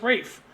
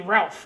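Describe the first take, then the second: First: The name is said with a Welsh pronunciation. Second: The name is said with an American pronunciation. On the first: The speaker calls it right. "but he's Welsh, so it's Rafe" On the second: The speaker calls it wrong. "that's how we would pronounce it if we were Americans"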